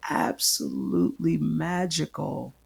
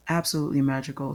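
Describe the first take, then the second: First: Drawn out slowly, leaning on "magical"; slow, savoured. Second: Fast, light repeat of "Absolutely magical"; quick repeat. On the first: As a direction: linger over every word in wonder. Savouring the memory. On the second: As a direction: toss it off quickly. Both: Real, not acted.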